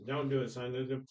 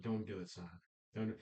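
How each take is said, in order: First: Said in the usual way. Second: Hushed plea. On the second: Retold or imitated. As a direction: lower and much softer, nearly whispered. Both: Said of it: "and he whispers".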